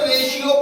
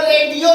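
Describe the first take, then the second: First: The middle consonant is an sh sound. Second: The middle consonant is a hard t-like sound. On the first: The speaker calls it right. "इसको रेशियो पढ़ते हैं" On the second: The speaker calls it wrong. "इसको रेडियो नहीं पढ़ेंगे हम लोग"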